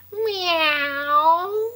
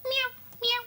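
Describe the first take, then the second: First: Long, drawn-out, swelling meow; big cat meow. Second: Tiny, very high, soft mews; little cat meow. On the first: Finding a big Chloe Cat, long drawn-out meow. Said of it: "Big one". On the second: Finding a little Chloe Cat, tiny high meows. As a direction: squeak out small kitten meows. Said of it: "Oh, there's a little one". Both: Pretend.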